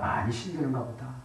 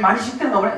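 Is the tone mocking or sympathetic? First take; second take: sympathetic; mocking. First: It is said in a warm, sympathetic tone. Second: It is said in a sneering, mocking tone. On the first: The speaker genuinely cares about the listener's hardship. The speaker calls it right. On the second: The speaker is ridiculing the listener's hardship. The speaker calls it wrong.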